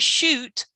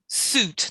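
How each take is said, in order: First: The word begins with a 'sh' sound. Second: The word begins with a plain 's' sound. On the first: The speaker calls it wrong. "not shoot" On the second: The speaker calls it right.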